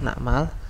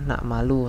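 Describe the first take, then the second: First: The word ends with no final vowel. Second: The word ends with a final u vowel. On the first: The speaker calls it right. "di sini harokatnya sukun, benar ya" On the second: The speaker calls it wrong. "salah, harokat dhammah"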